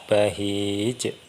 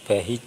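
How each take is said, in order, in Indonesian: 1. Huruf j terakhir punya pantulan yang kuat. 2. Huruf j terakhir punya pantulan yang ringan. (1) "pantulannya lebih kuat" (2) "Kalau yang qol-qolah sugro kan bahij"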